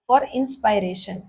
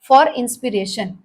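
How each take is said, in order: First: The second syllable has a long 'pie' vowel. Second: The second syllable has a short 'pit' vowel. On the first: The speaker calls it right. "इंस्पायरेशन पढ़ते हैं इसको" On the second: The speaker calls it wrong. "इंस्पिरेशन नहीं यार"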